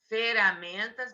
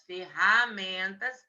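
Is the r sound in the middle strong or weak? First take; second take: weak; strong. First: The middle r sound is weak and light. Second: The middle r sound is strong and harsh. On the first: The speaker calls it wrong. "Ferramentas não tem som forte" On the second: The speaker calls it right. "mas ferramentas tem"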